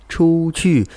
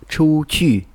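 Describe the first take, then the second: The two takes are said the same way.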